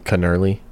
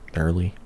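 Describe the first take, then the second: First: The word begins with a sounded K. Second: The word begins with an N sound. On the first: The speaker calls it wrong. "Can't be canurly" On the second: The speaker calls it right. "It's got to be gnarly"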